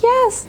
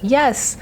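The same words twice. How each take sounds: First: It is said in a put-on child's voice. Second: It is said in her normal adult voice.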